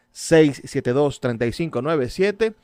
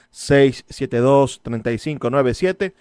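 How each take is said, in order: Both takes have the same delivery.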